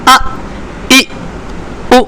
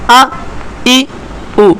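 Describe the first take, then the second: First: Each vowel is cut off with an abrupt jolt. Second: Each vowel is short, smooth and without a jolt. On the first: The speaker calls it wrong. "ये तो झटके देने के अंदाज में, जो कि दुरुस्त नहीं है" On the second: The speaker calls it right. "इसमें हमने इसको झटका भी नहीं दिया, खींचा भी नहीं"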